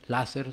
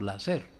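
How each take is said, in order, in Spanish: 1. El acento cae en la primera sílaba. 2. El acento cae en la última sílaba. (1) "no se dice láser" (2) "sino láser. O sea, sin tilde"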